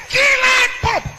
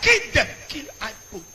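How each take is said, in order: First: Yelled high and loud, "kill I pope" hammered; shouted kill order. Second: Said in the usual way. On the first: Retold or imitated. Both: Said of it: "They say".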